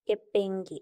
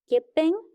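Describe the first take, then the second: First: কেপেঙ্গে with a voiced g after the ng; K changed to G. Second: কেপেঙ্ক ending in k, pitched up; base form with K. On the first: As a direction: turn the k into g in কেপেঙ্গে. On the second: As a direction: close কেপেঙ্ক on a hard k. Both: Shown as a demonstration. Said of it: "ইউমসা কে না হয়ে শুধু গে হয়েছে".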